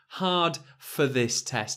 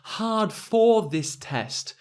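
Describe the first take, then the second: First: The word 'for' is unstressed with a weak vowel. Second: The word 'for' is stressed with a full vowel. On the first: It sounds like ordinary everyday speech. "a lot of native English speakers would say" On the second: It sounds very formal and upper-class. "if I was the Queen of England, I might say hard for this test with a lot of stress"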